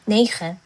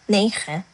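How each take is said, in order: No difference in how they are said.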